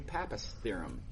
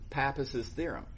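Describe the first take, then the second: First: The name has no added extra syllable. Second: The name ends with an added extra syllable. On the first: The speaker calls it wrong. "some people say Pappus theorem. It just sounds weird to me" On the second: The speaker calls it right. "if I make this a possessive, I say Pappus's theorem"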